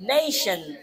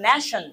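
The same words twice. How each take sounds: First: It is said with English-style pronunciation. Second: It is said with Bengali-style pronunciation. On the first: The speaker calls it right. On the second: The speaker calls it wrong.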